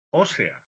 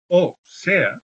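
First: "ósea" as one word, stressed on the first O; una sola palabra. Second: "o sea" as two separate words; dos palabras. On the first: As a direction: run "ósea" together, leaning on the opening ó. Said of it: "no confundir esto con ósea". («ósea» junto, con acento en la ó) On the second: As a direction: say "o sea" with a break after the "o". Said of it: "En dos palabras". («o sea», en dos palabras separadas) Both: Shown as a demonstration.

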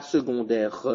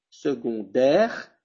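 First: "secondaire" ending in an added "reuh"; final e pronounced. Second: Slow "secondaire" ending on the r; silent final e. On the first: Teacher showing what not to say, final e pronounced. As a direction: sound the last e of "secondaire", low pitch. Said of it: "je dis pas secondaire". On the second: Teacher showing the right ending, silent final e. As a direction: finish "secondaire" on "dère", no "euh". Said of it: "je ne le prononce pas, la E finale". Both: Shown as a demonstration.

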